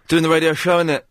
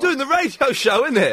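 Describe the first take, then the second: First: It is said with low energy and flatly. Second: It is said with high energy and enthusiasm. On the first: The speaker calls it wrong. "You sound a bit more enthusiastic, please" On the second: The speaker calls it right. "That's more like it"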